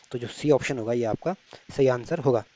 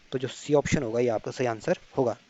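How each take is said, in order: The two takes are said the same way.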